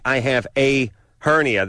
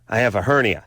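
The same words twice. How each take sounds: First: The article a is said apart from hernia. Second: The article a runs into hernia as one word. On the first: "they don't say I have a hernia" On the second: "that sounds like a hernia"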